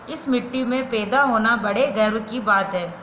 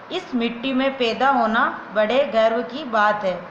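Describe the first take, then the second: No difference in how they are said.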